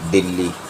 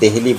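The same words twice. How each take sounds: First: The name is said without h, Dilli. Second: The name is said with an h, Dehli. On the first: This is the Hindi form. "Hindi में दिल्ली" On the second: This is the Urdu form. "Urdu में दिल्ली बोला जाता है"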